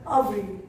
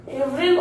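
First: "avril" opening on an "ah" sound; second variant pronunciation. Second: "avril" opening on an "ay" sound; first variant pronunciation. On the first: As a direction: say "avril" as "ah-vreel". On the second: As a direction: say "avril" as "ay-vreel". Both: Shown as a demonstration. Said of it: "Or you can say avril or avril".

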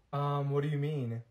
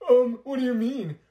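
First: Said in the usual way. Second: Louder, higher mimicking sneer; mocking repeat. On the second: Classmate mocking the other's innocent reply, sneering. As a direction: throw her words back at her, mocking.

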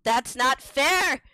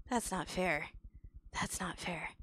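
First: Slow, stressed protest; rising protest. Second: Low, hushed protest; sulking protest. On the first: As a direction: draw it out as a loud complaint. Protest builds to a cry. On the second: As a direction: mutter it to yourself, sulking. Sulking repeat, then builds up. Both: Real, not acted.

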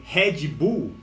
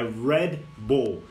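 First: "Red Bull" said slowly as "hédji bu"; Brazilian mispronunciation. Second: "Red Bull" slowly, with English r and a final l; correct English pronunciation. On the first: Retold or imitated. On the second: Shown as a demonstration. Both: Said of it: "É Red Bull".

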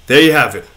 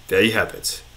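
First: Said in the usual way. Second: Quiet echo. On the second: Pretend. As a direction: softly repeat there you have it, fading out. Quiet echo of own phrase.

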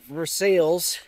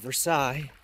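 First: "Versailles" said as ver-SALES; anglicized pronunciation. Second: "Versailles" said as ver-SIGH; French pronunciation. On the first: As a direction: sound out the L's in "Versailles", like "sales". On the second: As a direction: silent L's in "Versailles", ending like "sigh". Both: Shown as a demonstration. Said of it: "instead of Versailles".

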